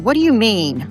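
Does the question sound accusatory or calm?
accusatory. The question is asked in an abrupt, accusatory tone. The speaker seems upset with the listener. "One is accusatory"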